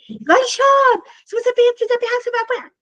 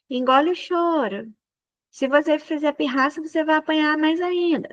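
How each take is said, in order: First: It is said in an angry voice. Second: It is said in a calm voice.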